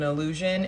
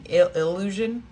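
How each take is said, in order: First: The first syllable is said quickly and plainly. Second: The first syllable is drawn out and stressed.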